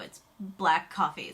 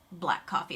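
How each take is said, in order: First: Black coffee said slowly and pointedly; slow, pointed "It's black coffee"; stress on black. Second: Said in the usual way. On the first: Shown as a demonstration. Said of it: "It's watered down espresso". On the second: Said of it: "an Americano is just".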